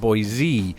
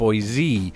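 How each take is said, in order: First: The middle consonant is a voiced z sound. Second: The same.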